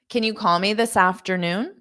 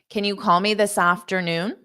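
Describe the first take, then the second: The two takes are said the same way.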